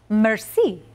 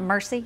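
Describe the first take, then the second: First: The word has a French pronunciation. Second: The word has an English pronunciation. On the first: The speaker calls it right. "Merci, not mercy" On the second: The speaker calls it wrong. "not mercy"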